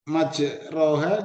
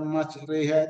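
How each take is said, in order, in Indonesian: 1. Vokal setelah r adalah a terbuka yang polos. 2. Vokal setelah r condong ke e. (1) "Itu majroha" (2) "dibaca majreha"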